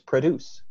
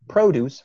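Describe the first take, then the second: First: The first syllable has a reduced schwa vowel. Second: The first syllable has a full 'o' vowel. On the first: "pra there, that's a schwa"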